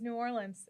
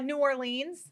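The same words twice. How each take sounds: First: Orleans ends with a short 'lins' sound. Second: Orleans ends with a long 'leens' sound. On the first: Locals say it this way. The speaker calls it right. "instead of like O R L E A N S, do like O R L I N S" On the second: Only tourists say it this way. The speaker calls it wrong. "New Orleans is the incorrect way to say it"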